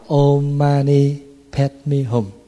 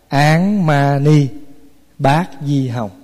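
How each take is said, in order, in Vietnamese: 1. Câu này được đọc theo cách phát âm tiếng Phạn. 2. Câu này được đọc theo cách phát âm Hán-Việt. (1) "Tiếng Phạn đọc là" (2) "Mình người Hoa với người Việt mình âm lại là"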